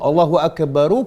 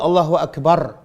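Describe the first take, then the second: First: The last word ends with an added 'ru' sound. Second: The last word ends on a bare 'r' sound. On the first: The phrase runs straight on into the next word. "kalau kita baca sambung, kena bunyi ru" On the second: The reciter stops after the phrase. "Tapi kalau kita berhenti"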